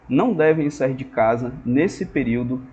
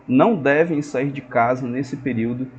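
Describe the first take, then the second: No difference in how they are said.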